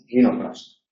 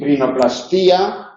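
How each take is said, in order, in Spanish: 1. El acento cae en la sílaba 'plas'. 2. El acento cae en la sílaba 'ti'.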